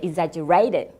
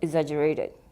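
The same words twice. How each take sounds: First: The word is said clearly with wide mouth movement. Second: The word is mumbled with little mouth movement. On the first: The speaker calls it right. "That will be clearer to people" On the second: The speaker calls it wrong. "You wouldn't understand what I was saying"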